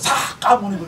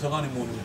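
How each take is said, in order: First: It is said loudly and harshly. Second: It is said quietly and gently. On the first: The speaker calls it wrong. "사가모니불 이렇게 하면 어떡해" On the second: The speaker calls it right. "조용조용하게 나긋나긋하게 해야지"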